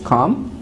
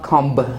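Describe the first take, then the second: First: The word ends on m with no b. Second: A b sound is pronounced after the m. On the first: The speaker calls it right. "It is come" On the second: The speaker calls it wrong. "It's not comb"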